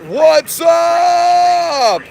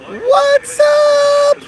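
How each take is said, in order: First: It is said in a lower pitch. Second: It is said in a higher pitch.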